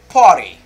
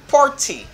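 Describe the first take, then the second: First: The T is a quick flap like d. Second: The T is a clear, crisp t sound. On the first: "for American, they say party" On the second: "on est capable de dire party"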